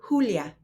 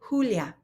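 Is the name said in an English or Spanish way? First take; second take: Spanish; Spanish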